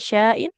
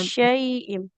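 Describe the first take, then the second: First: The first syllable has a plain 'a' vowel. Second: The first syllable has an 'ai' diphthong. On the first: The speaker calls it wrong. "Bukan sya'in" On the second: The speaker calls it right. "Ada shin fathah bertemu dengan ya sukun"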